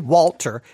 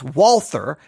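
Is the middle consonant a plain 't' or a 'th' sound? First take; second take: t; th. First: The middle consonant is a plain t sound. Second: The middle consonant is a th sound. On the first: The speaker calls it wrong. "I sometimes say Walter" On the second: The speaker calls it right. "It's Walther"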